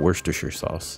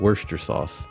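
First: Every written syllable of the word is pronounced. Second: Several written syllables are dropped from the word. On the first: The speaker calls it wrong. "It's not Worcestershire sauce" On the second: The speaker calls it right. "there's a lot of syllables there that are not supposed to be pronounced"

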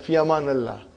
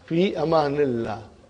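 First: The middle word ends with an 'a' vowel. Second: The middle word ends with an 'i' vowel. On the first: The speaker calls it wrong. "You will hear them" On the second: The speaker calls it right. "Don't make it mansub. It's majrur"

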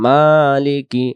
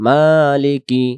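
No difference in how they are said.

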